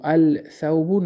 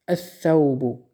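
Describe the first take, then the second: First: الثوب said al-sawbun with the lam sounded; الثوب wrongly as al-sawb, lam clearly heard; الثوب pronounced with the lam, the mistake to avoid; wrong pronunciation. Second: الثوب said as-sawbu, lam silent, s doubled; الثوب as as-sawb with no lam; الثوب properly, no lam, s doubled; correct pronunciation. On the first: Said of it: "الثوب نمیگیم". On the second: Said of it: "ثم ای حرفای شمسیه". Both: Shown as a demonstration.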